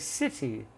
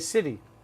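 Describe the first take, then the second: First: The middle consonant is a crisp t sound. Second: The middle consonant is a soft d sound. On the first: It sounds British. "we don't say city, that's British" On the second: It sounds American. "we say city"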